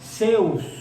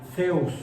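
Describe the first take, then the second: First: The first sound is a plain s. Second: The first sound is a lisped th. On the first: The speaker calls it wrong. "como lo decimos en español mexicano" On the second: The speaker calls it right. "Sería como una S arrastrada con la lengua debajo de los dientes"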